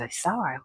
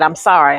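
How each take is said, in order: First: Much softer, barely voiced "I'm sorry"; repeating his "I'm sorry" quietly, deflated; dejected echo. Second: Said in the usual way. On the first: Teen girl echoing the agent's apology, barely audible.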